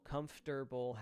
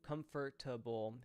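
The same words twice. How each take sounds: First: The word is said with three syllables. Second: The word is said with four syllables. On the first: "Comfortable has three syllable" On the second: "Comfortable has four"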